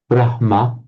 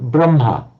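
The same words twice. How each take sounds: First: The h sound comes before the m. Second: The h sound comes after the m. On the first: "written in Devanagari and Sanskrit as well with a H-ma" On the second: "people pronouncing the other way around"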